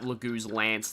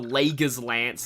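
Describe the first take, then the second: First: The second syllable has a long 'oo' vowel. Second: The second syllable has a 'ger' sound. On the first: This is how it is said in the game's dialogue. The speaker calls it right. "it's Lagoo's, okay" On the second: This is how the speaker used to say it. The speaker calls it wrong. "as I used to pronounce it"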